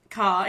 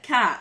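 First: Said in the usual way. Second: "cat" said as "cah", open vowel, no R; dropped final R. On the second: Shown as a demonstration. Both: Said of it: "drop the final R".

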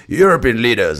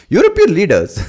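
First: Crisp BBC-style "European leaders"; BBC English. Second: Much higher, louder presenter voice saying "European leaders". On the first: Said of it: "that's a B B C way of saying it". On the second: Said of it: "you wanna say it in the presenter voice". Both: Shown as a demonstration.

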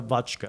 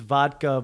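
First: "vodka" said as VOTCH-kuh; mispronounced vodka. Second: Said in the usual way. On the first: Retold or imitated. Friend imitating author's word, "vodka" as VOTCH-kuh. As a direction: put a "ch" in the middle of "vodka". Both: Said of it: "pronounces vodka".

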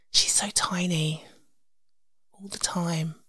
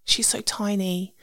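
First: Slow, tender whisper. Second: Said in the usual way. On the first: Shown as a demonstration. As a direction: breathe it softly like a secret.

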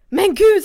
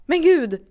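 First: Startled shout, high and loud; sudden loud, high-pitched outburst; shocked cry. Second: Mimicked shock, pitched up; stunned outburst, less loud than a shout; shocked exclamation. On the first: Retold or imitated. Woman retelling being walked in on topless, shocked cry. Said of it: "så här ropar". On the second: Woman imitating the man frozen in the doorway, shocked exclamation. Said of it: "han blir också i chock".

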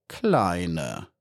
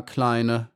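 First: „Kleine“ tiefer, sanft herzlich gesagt; „Kleine“ zärtlich und ruhig; beinahe herzlich. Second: Said in the usual way. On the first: A narrator's reading. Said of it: "sagte er beinahe herzlich". („Kleine“ fast herzlich, tiefer) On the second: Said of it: "sagte der Wächter ganz ruhig".

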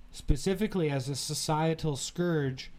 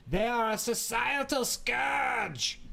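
First: Said in the usual way. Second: Slow, high, shouted German accent. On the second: Shown as a demonstration. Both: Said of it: "If you say it in a German accent".

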